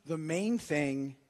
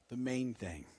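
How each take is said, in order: First: Said in the usual way. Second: "the main thing" repeated, lower and much softer; quiet repeated emphasis. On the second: Shown as a demonstration. Pastor driving home the key phrase, "the main thing" lower and softer. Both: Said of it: "repeated the main thing".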